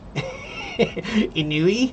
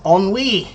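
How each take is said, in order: First: The word is sounded out from its spelling. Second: The word is said the French way. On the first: The speaker calls it wrong. "I said, I think it's Inui" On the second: The speaker calls it right. "And no, it's not Inui. It's ennui"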